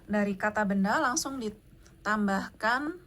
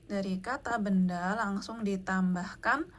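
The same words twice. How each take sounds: Both takes have the same delivery.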